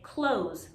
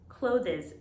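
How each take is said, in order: First: The th is dropped, ending in plain z. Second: The ending is said as an extra syllable. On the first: The speaker calls it right. "most people, especially here in New York City, say close, like close the door" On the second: The speaker calls it wrong. "I hear a lot of students saying clothes, clothes. This is incorrect"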